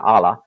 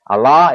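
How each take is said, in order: First: It is said with an English-style pronunciation. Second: It is said with an Arabic-style pronunciation. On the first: This is how English speakers usually say it. "we pronounce it usually" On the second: This is how Muslims say it. "as they pronounce it"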